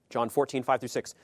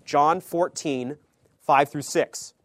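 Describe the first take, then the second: First: Said in the usual way. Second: Louder, slow announcement of the verse; announced loudly. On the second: Shown as a demonstration. Preacher announcing the Bible passage to the congregation, loud and slow. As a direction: call out the reference.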